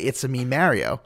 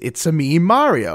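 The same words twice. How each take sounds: First: It is said in a plain New York voice. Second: It is said in Mario's character voice.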